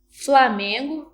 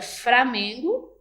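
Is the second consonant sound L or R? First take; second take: L; R. First: The word is said with an L sound. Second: The word is said with an R sound.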